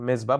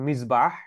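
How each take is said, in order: First: It has a 'z' sound and no final 'h'. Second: It has an 's' sound and a final 'h'. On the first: The speaker calls it wrong. "যেটাকে আমরা বাংলায় অনেক সময় মেজবা বলে ডাকা হয়" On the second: The speaker calls it right. "But actual উচ্চারণটা হচ্ছে মিসবাহ"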